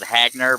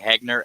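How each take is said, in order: First: The first vowel sounds like the 'a' in 'cat'. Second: The first vowel sounds like the 'e' in 'bed'. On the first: The speaker calls it wrong. "A lot of people call it Hagner" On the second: The speaker calls it right. "but it's actually Hegner"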